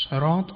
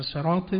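First: "صراط" said with an emphatic, heavy s; heavy sad sound opening "صراط"; pronounced with sad. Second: "صراط" said with a thin, plain s; plain sin sound opening "صراط"; pronounced with sin. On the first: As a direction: begin "صراط" on the thick s of sad. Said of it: "یا صاد". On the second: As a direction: begin "صراط" on the light s of sin. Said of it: "شما اگر سین". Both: Shown as a demonstration.

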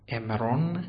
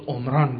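First: عمران said the Hebrew way as emron; Hebrew pronunciation. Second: عمران said as Arabic omran, o vowel first; Arabic reading عمران with short o then long a; Arabic pronunciation. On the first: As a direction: Hebrew reading عمران with e first and o at the end. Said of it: "تلفظاتی است که در عبری". (تلفظ عبری عمران، امرون) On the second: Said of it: "اگه بخواد عربی بشه باید چطور تلفظش کنیم". (تلفظ عربی عمران، امران با o کوتاه) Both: Shown as a demonstration.

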